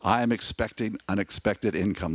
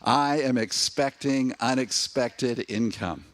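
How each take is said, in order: First: It is said plainly, without special conviction. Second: It is said with strong conviction and feeling.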